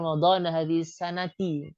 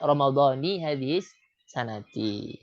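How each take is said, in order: First: The word before hadhihi ends with an 'a' vowel. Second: The word before hadhihi ends with an 'i' vowel. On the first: The speaker calls it wrong. "orang yang ada Ramadan hadhihi sanati" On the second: The speaker calls it right. "Yang betul adalah Ramadhani hadhihi sanati"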